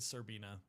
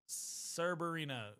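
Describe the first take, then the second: First: The second R sound is left out. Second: The second R sound is clearly pronounced. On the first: The speaker calls it wrong. "I said Serbina" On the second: The speaker calls it right. "There we go"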